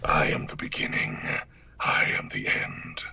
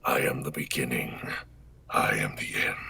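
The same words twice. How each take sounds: First: Omen voice line. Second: Low whispered menace; Omen voice line. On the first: Doing the requested line for the streamer, whispered. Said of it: "I am the beginning, I am the end, that one". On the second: Repeating the line for chat on camera, low whisper. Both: Acted. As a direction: whisper it from the dark.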